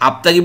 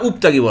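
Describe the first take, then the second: First: The word begins with an a vowel. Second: The word begins with a u vowel. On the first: "আপতাগি বলবেন না উপতাগি বলবেন?" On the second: "আপতাগি বলবেন না উপতাগি বলবেন?"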